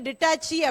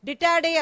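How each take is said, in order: First: The last syllable is said with a 'ch' sound. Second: The last syllable is said with a 'd' sound. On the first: The speaker calls it wrong. "ஒருவேளை அந்த ஸ்பெல்லிங் வந்து டிட்டாச்சி அப்படின்ற மாதிரி இருக்குது" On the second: The speaker calls it right. "Pronounce பண்ணும்போது டிட்டாடே அப்படின்னு சொல்லணும்"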